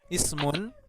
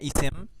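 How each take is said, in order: First: The word is said in full, ending in -un. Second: The word is shortened, ending in -im.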